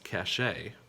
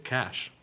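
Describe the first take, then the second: First: It is said with two syllables, ending ay. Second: It is said with one syllable, like cash. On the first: The speaker calls it wrong. "you might pronounce it as cachet" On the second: The speaker calls it right. "pronounced just like that green stuff"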